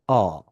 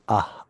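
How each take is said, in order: First: The vowel sounds open and resonant, jaw dropped. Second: The vowel sounds thin, with lips spread wide. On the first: The speaker calls it right. "en résonance et en ouvrant la bouche et en laissant tomber le menton" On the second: The speaker calls it wrong. "l'erreur, ce serait de faire A, A, en étirant la bouche"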